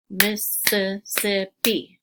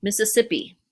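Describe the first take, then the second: First: Mississippi drawn out slowly, each syllable apart; Mississippi, stretched syllable by syllable for clapping. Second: Said in the usual way. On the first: Shown as a demonstration. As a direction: count out Mississippi, slow and separated. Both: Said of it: "if we said".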